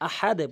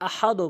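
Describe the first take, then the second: First: The final d is released with a bouncing echo. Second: The final d stops flat without a bounce. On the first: The speaker calls it right. "আহাদে বলবো" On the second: The speaker calls it wrong. "আহাদও বলবো না"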